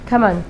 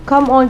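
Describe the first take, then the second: First: The words are run together as one short word. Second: Both words are said fully and separately. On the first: "की जगह कमन" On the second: "the word come on"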